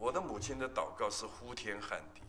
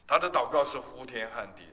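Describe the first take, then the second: First: Said softer, held back; subdued. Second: Louder emphatic restatement; preacher's raised restatement. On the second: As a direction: push the phrase out to the room. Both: Shown as a demonstration.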